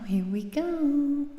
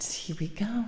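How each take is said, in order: First: Slow, loud hype-up call; loud and drawn out. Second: Whispering. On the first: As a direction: stretch it out loud to hype the start. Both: Real, not acted. Singer psyching up before song.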